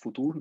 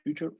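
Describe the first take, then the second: First: It is said the German way, 'foo-TOOR'. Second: It is said like the English word 'future'. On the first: The speaker calls it right. "it's pronounced futur" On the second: The speaker calls it wrong. "not future"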